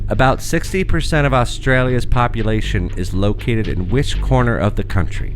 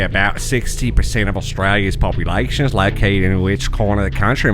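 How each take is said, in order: First: It is read in the speaker's ordinary accent. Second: It is read in a put-on Australian accent.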